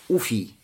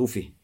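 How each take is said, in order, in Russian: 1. Слово заканчивается гласным «и». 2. Слово заканчивается звуком «х». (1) "с дамой в начале и с я" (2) "с га на конце"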